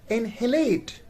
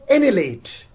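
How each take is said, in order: First: The H sound is pronounced in the middle. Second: The H sound is silent in the middle. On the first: The speaker calls it wrong. "it is not inhalate" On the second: The speaker calls it right. "So H is silent here"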